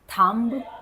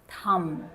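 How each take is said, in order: First: A B sound is pronounced at the end. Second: No B sound is pronounced at the end. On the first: The speaker calls it wrong. "it's wrong" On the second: The speaker calls it right. "B at the end is silent here also"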